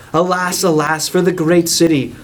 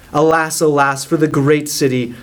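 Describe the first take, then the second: No difference in how they are said.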